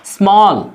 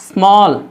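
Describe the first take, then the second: The two takes are said the same way.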